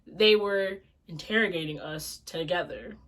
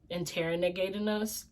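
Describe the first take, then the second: First: Said in the usual way. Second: Interrogating with an extra syllable, said quiet and questioning; mispronounced interrogating. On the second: Shown as a demonstration. Correcting her own slip, she tries the word Interrogating wrong. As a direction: stumble over Interrogating as in-ter-ren-a-gating. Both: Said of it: "That's not how you say it".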